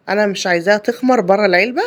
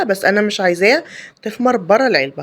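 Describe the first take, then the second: First: Weight on تخمر with a rising tune; تخمر lifted and held open; first statement. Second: عايزاها pressed firmly with a falling tune; insistent repeat. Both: Real, not acted.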